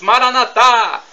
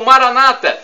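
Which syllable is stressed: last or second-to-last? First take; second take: last; second-to-last. First: The stress is on the last syllable. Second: The stress is on the second-to-last syllable. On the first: This is how Catholics say it. "tônica na última sílaba" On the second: This is how evangelicals and Protestants say it. "tônica na penúltima sílaba"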